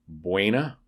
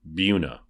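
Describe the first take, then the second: First: The name is said with Spanish pronunciation. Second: The name is said with a local English pronunciation. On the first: This is how the spelling would be read in Spanish. "in Spanish, which has rules of pronunciation, should be Buena" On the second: This is how the town's name is actually said locally. "but it's pronounced Buna"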